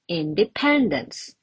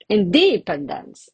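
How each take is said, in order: First: The stress falls on the usual syllable. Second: The stress falls on an unusual syllable. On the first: The speaker calls it right. "the correct one" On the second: The speaker calls it wrong. "it sounds really weird"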